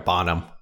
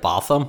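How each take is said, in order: First: The name is said with an 'n' sound. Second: The name is said with a 'th' sound. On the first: The speaker always said it this way. "I always called her Bonham Carter" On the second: Someone else said it this way. "You pronounced it Botham"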